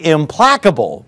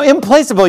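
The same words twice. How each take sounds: First: The middle syllable does not sound like 'place'. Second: The middle syllable sounds like the word 'place'. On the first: The people cannot be appeased. The speaker calls it right. "but that's not a word. It's actually implacable" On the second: The people cannot be placed anywhere. The speaker calls it wrong. "I've heard people say, you know, implacable, you can't stick these people anywhere"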